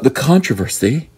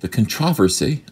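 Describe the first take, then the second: First: The word is pronounced the usual American way. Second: The word is pronounced the British way.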